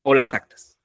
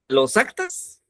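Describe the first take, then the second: First: "o las actas" dropping at the end; second choice "o las actas", falling tune; alternative option. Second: "Los actas" climbing high at the end; high, rising, questioning "Los actas"; offered option. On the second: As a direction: pose "Los actas" as the first choice, pitch lifted. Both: Shown as a demonstration. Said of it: "¿cómo sería?".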